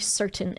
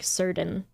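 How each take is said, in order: First: The middle consonant is a clear t sound. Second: The middle consonant is a soft d sound. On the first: "like a T" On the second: "instead of a D"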